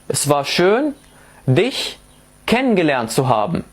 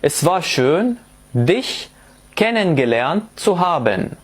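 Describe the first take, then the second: First: The word endings are shortened and reduced. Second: The word endings are fully pronounced. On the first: The speaker calls it right. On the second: The speaker calls it wrong.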